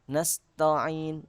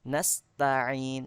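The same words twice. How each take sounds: First: The t is said thick and heavy. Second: The t is said thin and light. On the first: The speaker calls it wrong. "menebalkan tak ... Ada yang bacanya seperti itu" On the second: The speaker calls it right. "Yang betul adalah taknya itu ditipiskan"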